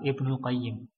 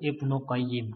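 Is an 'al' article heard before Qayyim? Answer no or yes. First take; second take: yes; no. First: The name includes the article al before Qayyim. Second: The name has no article before Qayyim. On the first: The name is said on its own. "Al-Qayyim itu pakai alif lam" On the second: The name continues with Al-Jauziyah. "Qayyimnya enggak pakai alif lam"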